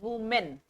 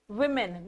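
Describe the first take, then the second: First: The first vowel sounds like the o in woman. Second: The first vowel sounds like the i in win. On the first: The speaker calls it wrong. "not women" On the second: The speaker calls it right. "it is pronounced as women"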